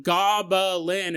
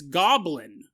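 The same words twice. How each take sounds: First: "goblin" drawn out slowly as GOB-uh-lin; mock-correcting GOB...uh...lin for "goblin"; wrong pronunciation demonstrated. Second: "goblin" in two syllables, GOB-lin; GOB-lin for "goblin", as a correction; corrected pronunciation. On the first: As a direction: stretch "goblin" into three separate syllables. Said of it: "She goes, "It's not goblin". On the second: Retold or imitated. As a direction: say "goblin" with no vowel between b and l. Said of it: "It's not goblin, it's goblin".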